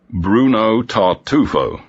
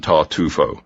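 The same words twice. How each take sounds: First: Slow thoughtful repeat. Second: Said in the usual way. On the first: Acted. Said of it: "repeated Inspector Evans". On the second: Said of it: "mentioned Tartufo".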